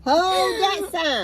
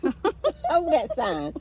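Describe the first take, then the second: First: Much higher, louder mock crying; mock wail. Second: Slow, laughing through the words; drawn out with a laugh. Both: Real, not acted. Laughing at holding up sign.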